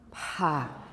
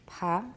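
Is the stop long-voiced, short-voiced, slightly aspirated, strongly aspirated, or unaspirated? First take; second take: strongly aspirated; slightly aspirated. First: The stop is voiceless with strong aspiration. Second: The stop is voiceless with slight aspiration. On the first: "strongly aspirated" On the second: "slightly aspirated"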